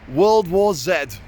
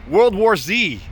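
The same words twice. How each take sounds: First: The last letter is said the British way, 'zed'. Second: The last letter is said the American way, 'zee'.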